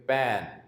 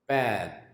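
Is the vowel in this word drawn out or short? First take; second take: drawn out; drawn out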